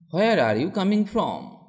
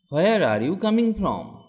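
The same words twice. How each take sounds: The two takes are said the same way.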